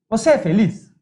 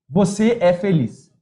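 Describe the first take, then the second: First: The pitch rises at the end. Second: The pitch falls at the end. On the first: It asks a question. "Muda a entonação" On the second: It states a fact. "Muda a entonação"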